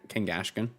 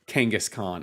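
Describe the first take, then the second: First: The middle has an 'sh' sound: Kangashkan. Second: The middle has an 's' sound: Kangas Khan. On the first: The speaker calls it wrong. "When I was younger, I always used to say" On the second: The speaker calls it right. "it was supposed to be like Genghis Khan"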